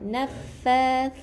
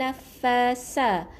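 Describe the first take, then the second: First: The consonant is a th sound with the tongue forward. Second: The consonant is a plain s sound. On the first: The speaker calls it right. "renggangkan kedua gigi lidah ke depan sikit eh. Jadi ada angin yang keluar" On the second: The speaker calls it wrong. "Bukan huruf S eh"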